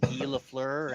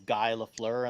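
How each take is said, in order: First: Guy is said with the French 'ghee' sound. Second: Guy is said like the English word guy. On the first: The speaker calls it right. "then I found that it was" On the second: The speaker calls it wrong. "I'd pronounce it as"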